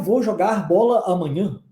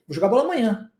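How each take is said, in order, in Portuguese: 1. Cada palavra é separada por uma pausa. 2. As palavras são faladas juntas, sem pausas. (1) "Assim, pausadamente" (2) "existe uma junção das palavras"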